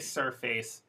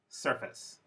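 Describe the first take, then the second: First: The second syllable has a full vowel. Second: The second syllable has a reduced schwa vowel. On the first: The speaker calls it wrong. "it does sound a little strange" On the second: The speaker calls it right. "this should be face, surface"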